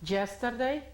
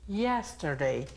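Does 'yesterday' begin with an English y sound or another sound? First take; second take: another sound; English y. First: It begins without the English y sound. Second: It begins with the English y sound. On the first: The speaker calls it wrong. "No es yesterday" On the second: The speaker calls it right. "sino que es yesterday. ¿Se recuerdan del sonido de la Y?"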